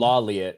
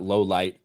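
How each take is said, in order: First: The name sounds like one word, 'Lawliet'. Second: The name sounds like two words, 'low light'. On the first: This is how it looks when read from the spelling. The speaker calls it wrong. "That's how I'd say it" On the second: This is how the name is actually meant. The speaker calls it right. "Not low light"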